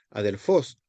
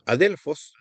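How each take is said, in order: First: Adelfos stressed on final FOS; stress on last syllable. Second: Adelfos with the middle DEL stressed; stress on second syllable. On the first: Teacher showing the Greek nominative, adelfos stressed on last syllable. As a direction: say a-del-FOS, rising at the end. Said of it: "pasa de la última sílaba". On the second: Teacher giving a Greek noun example, adelfos stressed on DEL. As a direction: punch DEL in adelfos, pitch peaking there. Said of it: "acento retrotraído". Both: Shown as a demonstration.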